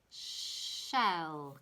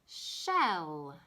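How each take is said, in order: First: Said in the usual way. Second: "shell" with a drawn-out sh onset; stressed sh. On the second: Shown as a demonstration. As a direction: lean on the sh of "shell". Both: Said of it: "it starts with a sh sound".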